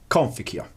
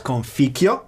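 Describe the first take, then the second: First: "conficio" accented on the CON; stress on first syllable. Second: "conficio" accented on the FI, drawn out slowly; stress on second syllable. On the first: Lecturer showing the postulated original accent, "conficio" stressed on CON. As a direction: hit CON in "conficio", let the rest fall away. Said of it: "originally on the first syllable". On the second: Lecturer showing the standard Latin accent, "conficio" stressed on FI. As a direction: lean on FI in "conficio". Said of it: "the original accent was not". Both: Shown as a demonstration.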